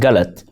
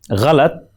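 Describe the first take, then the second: First: It begins with a plain, hard g sound. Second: It begins with a throaty, fricative gh sound. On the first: This is how Hindi speakers say it. "in Hindi and other dialects, uh, is pronounced as galat" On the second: This is the Urdu pronunciation. "has the sound gha"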